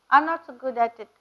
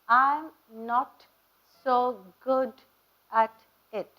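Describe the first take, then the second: First: The final consonants are pronounced weakly or dropped. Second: The final consonants are pronounced crisply and strongly. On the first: The speaker calls it wrong. "அப்படின்னு சொல்லக்கூடாது" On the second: The speaker calls it right. "See how I pronounce the consonants?"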